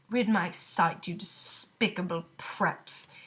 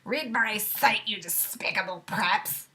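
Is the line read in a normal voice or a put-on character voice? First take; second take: normal; put-on. First: It is read in the reader's normal voice. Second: It is read in a put-on character voice. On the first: The speaker calls it wrong. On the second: The speaker calls it right.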